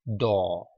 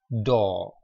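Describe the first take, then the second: No difference in how they are said.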